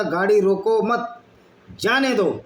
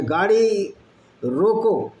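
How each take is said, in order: First: रोको मत run together, then जाने दो apart; pause after मत. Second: गाड़ी, a short pause, then रोको set apart and falling; pause after रोको. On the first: Acted. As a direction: break after मत, lift जाने and let it fall. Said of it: "वो बोलता, "मैंने बोला था". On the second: Shown as a demonstration. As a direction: stop firmly on रोको before any मत. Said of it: "आगे कॉमा".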